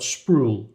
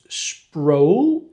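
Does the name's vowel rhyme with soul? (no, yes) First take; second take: no; yes. First: The vowel does not rhyme with soul. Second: The vowel rhymes with soul. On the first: The speaker calls it wrong. "not Sproul" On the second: The speaker calls it right. "it's Sproul ... Rhymes with soul"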